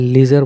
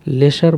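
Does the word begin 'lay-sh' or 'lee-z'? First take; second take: lee-z; lay-sh. First: It starts with a long 'ee' and a 'z' sound. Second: It starts with a short 'e' and an 'sh' sound. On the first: This is a simpler pronunciation that is good enough for now. "लीजर ही पढ़ लो" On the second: This is the dictionary pronunciation. "लेशर बोलता है dictionary"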